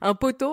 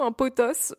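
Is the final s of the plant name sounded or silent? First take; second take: silent; sounded. First: The word ends on a vowel, final s silent. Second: The word ends with a clearly sounded s. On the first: The speaker calls it wrong. "Je sais pas du tout si on dit ça comme ça" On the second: The speaker calls it right. "Je pense que c'est plutôt potos"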